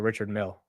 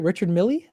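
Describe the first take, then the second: First: The surname ends on the 'l' sound. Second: The surname ends with an added 'ee' sound. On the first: The speaker calls it right. "Oh, that is how you say it" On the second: The speaker calls it wrong. "That's how you say it, right?"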